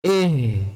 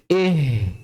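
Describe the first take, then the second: The two takes are said the same way.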